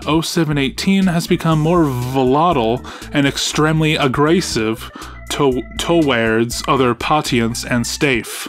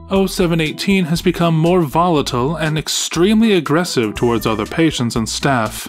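First: It is read carefully, with precise pronunciation. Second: It is read casually, without careful pronunciation. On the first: The speaker calls it right. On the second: The speaker calls it wrong.

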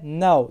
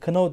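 First: The word starts directly with the n sound. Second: A k sound is heard before the n. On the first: The speaker calls it right. "now diye okunur" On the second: The speaker calls it wrong. "knou değil de"

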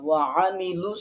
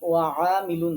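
First: The vowel on the 'ain' is kept short. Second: The vowel on the 'ain' is drawn out long. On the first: The speaker calls it right. "যেখানে টান নেই, টানা যাবে না" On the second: The speaker calls it wrong. "ওয়ামিলু আইনে টেনে ফেলছেন, ওয়ামিলু না"

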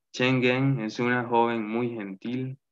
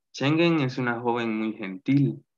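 The two takes are said the same way.

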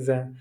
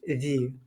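First: The vowel is a short, neutral 'uh'. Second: The vowel is a long, high 'ee'. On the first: The next word starts with a consonant. "Якщо «зе» стоїть перед іменником, який починається на приголосну, воно читається як «зе»" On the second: The next word starts with a vowel. "Коли наступне слово починається на голосну, воно читається як «зі»"

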